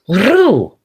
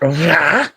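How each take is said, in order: First: The name ends with an 'oo' vowel. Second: The name ends with an 'ah' vowel. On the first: The speaker calls it right. "It's Ru" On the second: The speaker calls it wrong. "not Ra"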